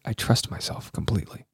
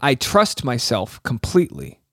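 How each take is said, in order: First: Hushed, low whispered affirmation; imitated whisper. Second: Slow, lower, deliberate repeat; solemn affirmation. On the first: Host copying her whispered affirmation, whispering. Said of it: "then she whispered it". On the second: Retold or imitated. Host repeats affirmation for listeners, solemn. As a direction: recite it slowly for listeners to follow.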